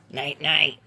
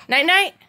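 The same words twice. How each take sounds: First: Much lower and softer night night; hushed night night. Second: Said in the usual way. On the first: Shown as a demonstration. Bedtime with the child, hushed and low. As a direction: tuck them in with a hush.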